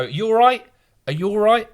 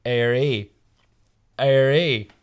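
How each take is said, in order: First: High, bright mock Belfast "You all right?"; a mock Northern Irish "are you all right" in a raised voice; Northern Irish accent. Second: "Airy" as a lightly voiced Belfast "all right"; a hint of Belfast menace behind a balaclava; Northern Irish accent. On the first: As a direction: greet them like a Belfast local, pitched up. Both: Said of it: "in a Northern Irish accent".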